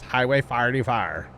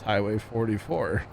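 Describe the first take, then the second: First: Four is said with a Saint Louis accent. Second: Four is said in a standard accent. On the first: "a real Saint Louis thing is Highway forty Fire" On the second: "it's Highway forty-four"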